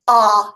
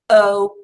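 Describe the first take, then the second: First: The vowel is short, like in 'not'. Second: The vowel is long, like in 'go'. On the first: "Now let's say the short vowel sounds" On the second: "Those are our long vowel sounds"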